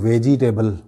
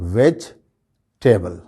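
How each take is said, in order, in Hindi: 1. 'veg' के बाद वाला 'e' स्ट्रेस्ड है। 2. 'veg' के बाद वाला 'e' अनस्ट्रेस्ड है। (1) "ज़्यादा लोग इसको अदा करते हैं" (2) "इस पर स्ट्रेस नहीं दिया जाता"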